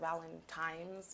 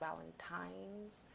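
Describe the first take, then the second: First: The word is said quickly with casual, reduced sounds. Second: The word is said slowly with every sound clear. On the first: The speaker calls it wrong. "it's natural to be like Valentine's" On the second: The speaker calls it right. "I'm saying that word so slow"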